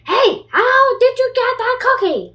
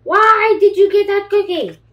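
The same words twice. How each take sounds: First: High, loud jealous shout; pigeon shout. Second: High, loud outraged demand; pigeon shout. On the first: Pigeon yelling at the duckling about the cookie, high and loud. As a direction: demand it, outraged and loud. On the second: Pigeon shouting at the duckling about the cookie, high and loud. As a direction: yell it in jealous outrage. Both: Acted.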